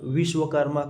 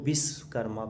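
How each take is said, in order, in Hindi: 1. शब्द की शुरुआत v ध्वनि से होती है। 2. शब्द की शुरुआत b ध्वनि से होती है। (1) "हम लोग व को ब से उच्चारण करते हैं" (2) "बी मतलब लगा देते हैं"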